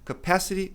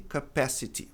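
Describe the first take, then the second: First: "capacity" as kuh-PASS-uh-ree; American "capacity" with R-like T; flapped T. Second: "capacity" as kuh-PASS-uh-tee; unflapped "capacity", T sounded; clear T. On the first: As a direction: tap the T in "capacity". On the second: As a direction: pronounce a true T in "capacity". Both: Shown as a demonstration. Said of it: "é só uma questão de sotaque".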